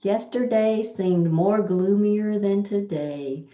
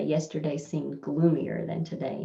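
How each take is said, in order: First: Yesterday stressed, louder and slowed; slow emphatic wrong example. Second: Said in the usual way. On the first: Shown as a demonstration. Teacher reads the wrong sentence to students, slow and loud. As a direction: read the faulty sentence slowly for the class. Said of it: "this is a double comparison". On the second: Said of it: "you just would say".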